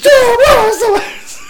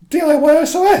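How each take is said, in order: First: It is said louder and at a higher pitch. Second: It is said at normal loudness and pitch.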